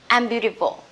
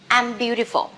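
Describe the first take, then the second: First: I am is contracted into one syllable. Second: I am is contracted into one syllable.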